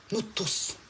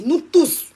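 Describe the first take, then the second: First: Much softer, falling "Nous tous"; quiet echo. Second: Higher and louder, rising on "Nous tous"; emphatic call. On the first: Streamer repeating to her viewers, "Nous tous" hushed and falling. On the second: Streamer rallying all her viewers, "Nous tous" called out loud. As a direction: call out "Nous tous" high and strong to everyone. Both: Real, not acted.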